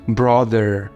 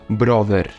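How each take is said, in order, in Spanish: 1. La r final está curvada hacia el paladar. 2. La r final no está curvada hacia atrás. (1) "Haces ese sonido que es con la lengua una forma rara en el paladar" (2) "Tú no dices brother"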